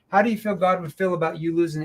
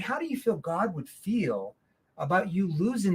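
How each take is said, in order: First: It is said quickly with a flat tone. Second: It is said slowly with a concerned tone. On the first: The speaker shows no feeling. The speaker calls it wrong. "See, there's no emotion involved" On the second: The speaker cares about the listener. The speaker calls it right. "I shift my tone into that concern tone. Do you see how I paced that question out?"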